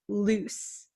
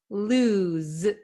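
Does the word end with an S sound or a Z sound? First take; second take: S; Z. First: The word ends with an S sound. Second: The word ends with a Z sound. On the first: The speaker calls it wrong. "it's not loose" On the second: The speaker calls it right. "It's lose, z. this S sounds like a Z"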